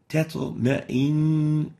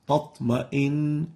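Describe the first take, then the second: First: The first t sound is plain and light. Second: The first t sound is velarized and heavy. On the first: The speaker calls it right. "The first one is not velarized, it's attenuated" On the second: The speaker calls it wrong. "it ends up with a double ta, ... and this is wrong"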